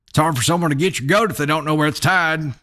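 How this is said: It is read with a Southern drawl.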